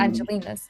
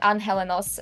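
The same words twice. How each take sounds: First: The word is said with an English pronunciation. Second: The word is said with a Spanish pronunciation. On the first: "you mean" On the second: "I said it in sort of like Spanish pronunciation"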